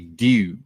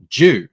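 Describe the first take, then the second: First: It is said in an American accent, plain D. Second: It is said in an Australian accent, like Jew.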